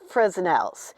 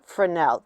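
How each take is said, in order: First: The S in the middle is sounded. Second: The S in the middle is silent. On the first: The speaker calls it wrong. "It looks like Fresnel's" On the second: The speaker calls it right. "It's actually pronounced Fresnel. The S is not pronounced in the middle of it"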